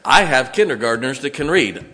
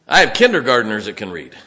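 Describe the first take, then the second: First: Said in the usual way. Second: "I have kindergartners that can read" said lower, pressing each word; emphatic repeat. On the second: Shown as a demonstration. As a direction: lower it and press the point home. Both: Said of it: "repeated for emphasis".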